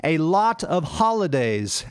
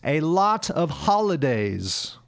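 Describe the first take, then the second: First: The vowel in 'lot' sounds like 'ah'. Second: The same.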